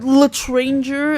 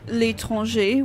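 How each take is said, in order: First: It is said with an English-speaker accent. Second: It is said with a native French accent.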